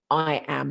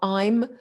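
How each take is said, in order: First: It is said as two full separate words. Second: It is said as one contracted syllable. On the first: The speaker calls it right. "I want you to pronounce them I am" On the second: The speaker calls it wrong. "not I'm"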